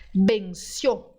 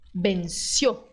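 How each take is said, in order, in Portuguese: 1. A vogal O final é fechada. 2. A vogal O final é fechada.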